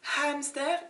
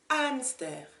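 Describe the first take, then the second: First: The initial H is pronounced aloud. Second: The initial H is silent. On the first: The speaker calls it wrong. "it's not hamster" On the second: The speaker calls it right. "it's hamster"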